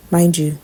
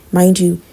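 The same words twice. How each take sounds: The two takes are said the same way.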